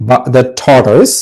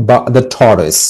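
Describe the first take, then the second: The two takes are said the same way.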